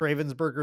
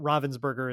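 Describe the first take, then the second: First: The first part sounds like English 'raven'. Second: The first part is said the German way. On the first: The speaker calls it wrong. "I think I say it wrong every time" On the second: The speaker calls it right. "is actually, I believe, how you're supposed to pronounce that"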